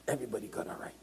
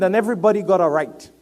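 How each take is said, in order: First: Near-whisper, very soft; hushed repeat. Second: Loud, high, quick declaration; emphatic preaching. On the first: Preacher repeating everybody's right to the congregation, hushed. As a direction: drop to a whisper to let it sink in. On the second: Preacher declaring everybody's right, loud and emphatic. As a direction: proclaim it firmly to the room. Preaching, then repeats it hushed. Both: Real, not acted.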